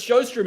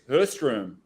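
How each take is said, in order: First: The name begins with an S-like sound. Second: The name begins with an H sound. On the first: The speaker calls it wrong. "it's just been Sjostrom for so long" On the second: The speaker calls it right. "I'm pretty sure it's Hurstrom"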